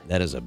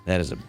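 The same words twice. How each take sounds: The two takes are said the same way.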